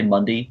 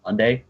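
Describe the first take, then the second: First: Mundy, ending in "dee"; local pronunciation. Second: Monday ending in a full "day"; spelled-out pronunciation. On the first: Friend showing how they say the weekday, "Mundy" ending in "dee". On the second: Friend showing the form they don't use, "Monday" ending in "day". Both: Shown as a demonstration. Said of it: "we say Mundy, not Monday".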